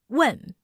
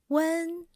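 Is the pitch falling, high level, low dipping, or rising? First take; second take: falling; high level. First: The pitch falls sharply and firmly. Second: The pitch stays high and level. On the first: "with a downward pitch. Sounds firm and angry" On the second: "The first tone has the highest pitch"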